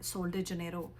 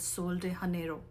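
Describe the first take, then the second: First: Janeiro begins with a J sound. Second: Janeiro begins with an H sound. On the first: This is the English way of saying it. "English में करेंगे तो जे का आएगा" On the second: This is the Spanish way of saying it. "अगर स्पेनिश में करेंगे तो एच का साउंड आएगा"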